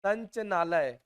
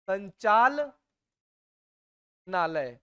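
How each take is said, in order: First: संचनालय said short and quick, the ला swallowed; mock wrong pronunciation. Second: संचालनालय stretched out very slowly, every syllable clear; slow careful pronunciation. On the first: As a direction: toss off the lazy संचनालय. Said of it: "आप क्या बोल रहे हो?". (संचनालय को जल्दी, ला खाकर बोलना) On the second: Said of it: "मैंने क्या कहा?". (संचालनालय को बहुत धीरे, हर अक्षर साफ़ बोलना) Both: Shown as a demonstration.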